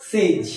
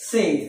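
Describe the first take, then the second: First: সেইজ ending in a buzzed z; সেইজ said "seyz"; correct pronunciation. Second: সেইস ending in a hissed s; সেইস said "seys"; common mispronunciation. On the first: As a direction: voice the final consonant of সেইজ. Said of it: "আসলে এর উচ্চারণ হবে". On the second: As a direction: say সেইস with voiceless final s. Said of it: "কি বলি?". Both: Shown as a demonstration.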